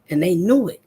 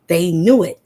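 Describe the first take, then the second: First: Said in the usual way. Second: "knew" punched much louder; emphatic repeat. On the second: Real, not acted. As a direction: hammer it home, louder on knew.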